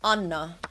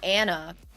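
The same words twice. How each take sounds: First: The name is said with a Finnish pronunciation. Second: The name is said with an English pronunciation.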